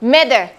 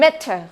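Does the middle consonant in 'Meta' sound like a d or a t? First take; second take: d; t. First: The middle consonant sounds like a soft d. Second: The middle consonant is a clear t sound. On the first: "แบบ American" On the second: "แบบ British"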